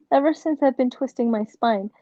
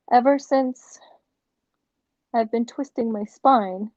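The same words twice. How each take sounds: First: Said in the usual way. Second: Upbeat infomercial testimonial. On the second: Real, not acted. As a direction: sell it like a TV ad pitch. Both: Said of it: "I sound like a infomercial".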